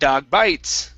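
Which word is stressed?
bites. The stress falls on the word bites. The speaker calls it wrong. "stressing the last word in the sentence"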